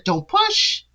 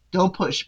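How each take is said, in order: First: "don't push" jumping high with a rising push; a sharp, high, rising warning on "push"; emphatic warning. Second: Quiet warning. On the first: Warning Tia about pushing Rob, sharply and high. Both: Real, not acted. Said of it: "But Tia".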